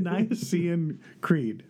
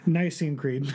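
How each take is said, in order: First: Slow, unsure, with a laugh; halting attempt. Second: Brisker, surer delivery; quick and confident. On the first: Real, not acted. Co-host fumbling the creed's name for listeners, halting and unsure. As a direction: stumble slowly into it, amused at yourself. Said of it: "don't know how to say it". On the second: Shown as a demonstration. Co-host following his partner's advice, quick and confident. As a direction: say it straight through without hesitating. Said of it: "quick and confident".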